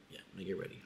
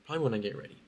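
First: Much softer, half to herself; softly repeated. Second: Said in the usual way. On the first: Real, not acted. Vlogger repeats her plan to viewers, much softer. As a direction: drop to a near murmur repeating it.

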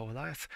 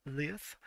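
First: Leith said as lyth, rhyming with teeth but with an eye sound; corrected pronunciation. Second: Leith said as leeth, long ee; first pronunciation. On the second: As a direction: say Leith rhyming with teeth. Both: Shown as a demonstration.

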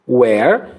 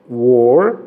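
First: "Where" with an open e sound; open vowel. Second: "Were" with a closed vowel, no H. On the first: Teacher contrasts open where with closed were. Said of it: "som aberto". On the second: Teacher contrasts closed were with open where. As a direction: keep "Were" closed and rounded. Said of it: "som fecha-, fechado". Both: Shown as a demonstration.

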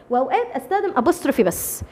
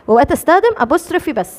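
First: Said in the usual way. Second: أستخدم hit louder on the repeat; teacher repeats the rule, punching أستخدم; stress on أستخدم. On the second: Shown as a demonstration. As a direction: lean on the word أستخدم, a bit louder. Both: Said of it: "repeats the rule".

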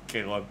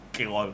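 No difference in how they are said.

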